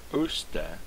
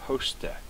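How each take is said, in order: First: "oste" with no h, starting straight on the oh; wrong way. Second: "hoste" with a clear breathy h before the oh; half-whispered "hoste" starting on an h; right way. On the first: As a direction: demo the mistake, dropping the h in "oste". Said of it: "It's not oste". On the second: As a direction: demo the correct "hoste", breathed h first. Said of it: "but it's hoste". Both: Shown as a demonstration.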